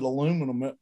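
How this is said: The word is said in the American form. "the United States is the only place that pronounces it aluminum"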